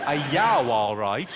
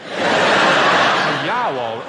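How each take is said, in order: First: Lightly repeated Brummie greeting; Birmingham accent. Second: Loud, overdone Brummie vowels; all vowels, hammed-up Brummie; exaggerated Birmingham accent. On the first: Retold or imitated. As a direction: audience phrase echoed in Brummie. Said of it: "What was it?". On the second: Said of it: "That was just all vowels".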